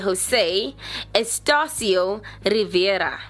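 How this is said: The name is said with a Spanish accent.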